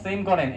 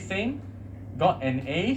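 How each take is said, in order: First: It is said flatly, as a plain statement. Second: It is said with a pitch peak, sounding surprised. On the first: It simply reports a fact. "as a statement" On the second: The speaker finds it hard to believe. "you have some peak here ... it is more about uh, unbelievable"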